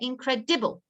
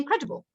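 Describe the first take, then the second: First: The ending is said clearly as 'ibble'. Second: The ending is said quickly and reduced, naturally. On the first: This is a way to remember the spelling. "if I'm writing it, I will say incredible... it's an ibble word" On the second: This is how the word is read aloud. "when I'm reading that sentence, I'll say incredible"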